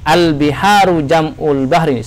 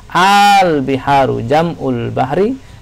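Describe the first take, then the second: First: The first vowel is said short. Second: The first vowel is drawn out long. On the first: It is read as a plain statement. The speaker calls it wrong. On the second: It is read as a question. The speaker calls it right. "maka dibaca panjang"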